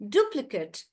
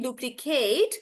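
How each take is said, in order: First: "Duplicate" with short "kut" ending; stress on DU. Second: "duplicate" with long "KATE" ending; "duplicate" as "du-pli-KAYT"; verb pronunciation. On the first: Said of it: "I'm stressing on do". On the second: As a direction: stretch the end of "duplicate". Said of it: "because that's the verb". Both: Shown as a demonstration.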